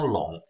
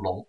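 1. 这个字读第三声，是低降调。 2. 这个字读第二声，是升调。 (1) "今天我们念成三声笼" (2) "在古诗里为了平仄我们就念成笼"

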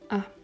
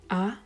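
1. Die Tonhöhe ist leicht, ohne Verlauf. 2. Die Tonhöhe steigt von mittel auf hoch. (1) "ein neutraler Ton, also keine besondere Betonung" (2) "Der zweite Ton steigend"

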